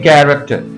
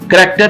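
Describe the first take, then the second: First: The first vowel is drawn out longer. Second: The first vowel is short. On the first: The speaker calls it right. "ये थोड़ा सा हम लंबा करेंगे शुरू में" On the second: The speaker calls it wrong. "करेक्टर नहीं है"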